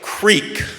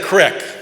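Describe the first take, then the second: First: The vowel is long, as in 'seek'. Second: The vowel is short, as in 'sick'. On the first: This is the East Coast way of saying it. "they said words like creek" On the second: This is the Montana way of saying it. "instead of crick"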